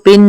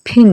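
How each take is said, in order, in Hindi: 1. p बिना हवा के झोंके के बोला जाता है। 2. p हवा के झोंके के साथ बोला जाता है। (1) "पिन नहीं" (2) "फिन निकलेगा। तो ये है एस्पिरेटेड साउंड"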